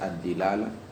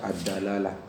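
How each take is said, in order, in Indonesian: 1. Suku kata pertama memiliki vokal i. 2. Suku kata pertama memiliki vokal a. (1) "bisa dibaca ad-dilalah" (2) "bisa dibaca ad-dalalah"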